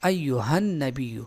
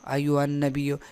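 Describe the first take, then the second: First: The 'h' sound is clearly pronounced. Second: The 'h' sound is hidden and barely heard. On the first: The speaker calls it right. "हालांकि इसको जाहिर करना ज़रूरी है" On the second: The speaker calls it wrong. "यानी इस हाँ को बिल्कुल छुपा देते हैं"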